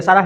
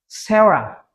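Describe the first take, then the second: First: "Sarah" said the Indonesian way, SA-ra with an open a; prononciation indonésienne. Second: "Sarah" said the English way, SEH-ra; English pronunciation. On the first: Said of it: "di Indonesia juga ada Sarah". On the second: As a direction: open "Sarah" with an "eh" vowel, "sera". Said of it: "Mereka menyebutnya apa?". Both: Shown as a demonstration.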